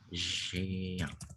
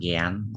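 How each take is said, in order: First: The word begins with a soft zh sound. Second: The word begins with a hard g sound. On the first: The speaker calls it right. "tapi Jeang" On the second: The speaker calls it wrong. "Ini cara membacanya itu bukan Gian"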